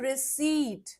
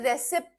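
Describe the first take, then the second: First: No p sound is heard before the final t. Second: A p sound is pronounced before the final t. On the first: The speaker calls it right. "पी silent होता है, हम बोलते हैं रिसीट" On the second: The speaker calls it wrong. "English में से रेसिप्ट नहीं बोलते"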